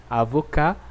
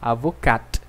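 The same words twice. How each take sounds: First: "Avocat" ending on a bare "ka", no T sound; silent final T. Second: "avocat" with a crisp final T, "avokat"; final T sounded. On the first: Teacher modelling masculine form, T left silent. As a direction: say "Avocat" as "avoká", T dropped. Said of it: "Sem som de T, masculino". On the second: Teacher modelling feminine form, T pronounced. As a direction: finish "avocat" on a clear T. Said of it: "Com som de T, feminino". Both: Shown as a demonstration.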